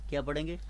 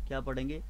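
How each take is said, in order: Both takes have the same delivery.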